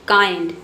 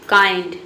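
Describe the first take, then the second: Both takes have the same delivery.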